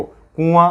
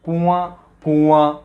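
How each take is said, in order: First: कुआं said the local way, nasal in the middle; wrong कुआं. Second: कुआं with the nasal at the very end; कुआं, nasal vowel last; correct कुआं. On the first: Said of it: "अंतर देखो". (कुआं का गलत उच्चारण) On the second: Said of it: "ये अंत में ले जाओ आप". (कुआं का शुद्ध उच्चारण) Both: Shown as a demonstration.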